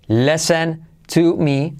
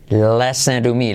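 First: "Listen to me" slowly, with a separate T in "to"; word-by-word model. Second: "Listen to me" linked slowly as LE-sen-ru-mi; soft R linking. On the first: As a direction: spell out "Listen to me" word by word, silent T in "Listen". ("Listen to me" lento, con la T de "to") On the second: ("Listen to me" con la T como R suave) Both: Shown as a demonstration. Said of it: "T como R suave".

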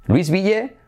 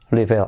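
First: LOUISVILLE as "luis-BI-ye", S sounded; Spanish spelling reading. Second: LOUISVILLE as "LOO-ee-vul", S dropped; correct English pronunciation. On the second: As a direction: say LOUISVILLE with silent S. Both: Shown as a demonstration. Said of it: "se dice".

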